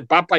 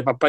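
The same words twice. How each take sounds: First: "papa" with the weight on the first "pa"; stress on first vowel. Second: Said in the usual way. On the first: Shown as a demonstration. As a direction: say "papa" leaning on the first vowel, gitano style. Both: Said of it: "ese énfasis en la primera vocal".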